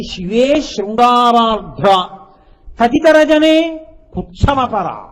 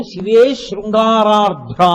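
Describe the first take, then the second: First: "శివే శృంగారార్ధ్ర" drawn out very slowly and louder, "శివే" rising; intoned quote. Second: "శివే శృంగారార్ధ్ర" chanted slowly and louder, "శివే" falling; intoned quote. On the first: Repeats verse line for explanation. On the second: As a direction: savour "శివే శృంగారార్ధ్ర" slowly like a recited line. Requotes verse opening slowly. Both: Acted.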